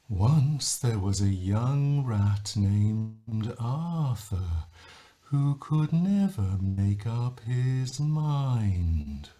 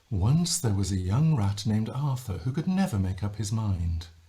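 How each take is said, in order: First: Every syllable is stretched out long. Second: The syllables are said at normal length.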